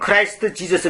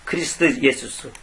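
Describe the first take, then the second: First: It sounds like Kraist Jeezus, with English vowels. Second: It sounds like Krist Yesus, without English vowels. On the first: "영어식으로는" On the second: "원래 발음대로"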